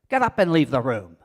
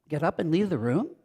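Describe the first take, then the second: First: It is said loudly and forcefully. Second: It is said with a questioning tone. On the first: "Or forcefully" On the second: "Or with a questioning tone"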